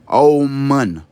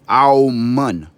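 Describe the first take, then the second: First: It starts with an 'aum' sound and ends in 'oon'. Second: It starts with an 'aum' sound and ends in 'oon'.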